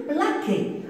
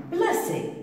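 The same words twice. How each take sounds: First: "plaquer" with a hard K in the middle; misread without cedilla. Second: Said in the usual way. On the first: Shown as a demonstration. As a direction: say "plaquer", K where the S sound belongs. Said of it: "si je veux lire le verbe". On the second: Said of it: "le verbe placer".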